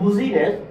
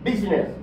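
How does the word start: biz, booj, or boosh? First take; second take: booj; biz. First: It starts with 'booj' and has three syllables. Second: It starts with 'biz' and has two syllables. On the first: The speaker calls it wrong. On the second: The speaker calls it right.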